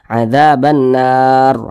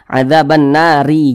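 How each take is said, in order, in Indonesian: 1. Kata ini berhenti pada huruf r tanpa vokal. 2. Kata ini berakhir dengan vokal i setelah huruf r. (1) "kalau kita berwakaf tepat di huruf ro, maka kita baca" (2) "Jangan jangan dibaca"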